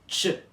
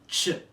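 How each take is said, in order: The two takes are said the same way.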